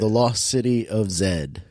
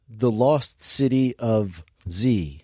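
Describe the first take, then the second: First: The final letter is pronounced zed. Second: The final letter is pronounced zee. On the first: This is how it is said in the film. "because that's how they say it in the movie" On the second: This is the usual American way to say it. "But we're America"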